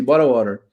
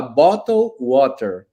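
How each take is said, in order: First: "Bottle water" said fast, the t's tapped into r's. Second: "Bottle water" said very slowly with a crisp t; slow and clear. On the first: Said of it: "eu falava bem rápido". ("Bottle water" rápido com t batido) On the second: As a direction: stretch out "Bottle water" and hit each t hard. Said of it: "com esse cara, tinha que falar". ("Bottle water" bem devagar, t bem marcado) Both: Shown as a demonstration.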